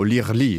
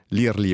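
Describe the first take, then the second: First: The word is pronounced in a French way. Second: The word is pronounced in an Italian way.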